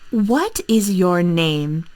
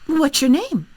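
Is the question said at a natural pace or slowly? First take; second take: slowly; natural pace. First: It is said slowly with each word clearly separate. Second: It is said quickly with the words run together. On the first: "I need to say it slowly and very clearly" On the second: "For my American accent, I would say"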